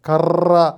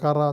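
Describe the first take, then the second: First: The r sound is trilled several times. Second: The r sound is a single tap. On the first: The speaker calls it wrong. "എന്നാരും പറയില്ല" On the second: The speaker calls it right. "എന്നേ പറയുള്ളൂ"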